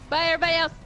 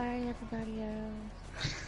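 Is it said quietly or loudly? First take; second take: loudly; quietly. First: It is said loudly. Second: It is said quietly.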